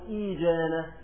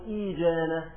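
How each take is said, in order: First: A long ee comes before the j. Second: A long ee comes before the j.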